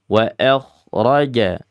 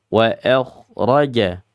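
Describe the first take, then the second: No difference in how they are said.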